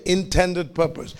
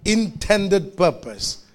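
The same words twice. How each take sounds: First: Said in the usual way. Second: "Intended purpose" slowly, each word weighed; slow, stressed "Intended" with a falling close; slow emphasis. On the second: Shown as a demonstration. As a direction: lean on "Intended" and slow right down.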